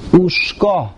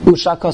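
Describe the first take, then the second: First: The sh and k sounds run together without a vowel. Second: A short a vowel separates the sh and k sounds. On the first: The vowel mark under the shin is read as a silent shva. "the Gra holds Ushka" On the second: The vowel mark under the shin is read as a patach. "read more as a Patach. So then it's Ushaka"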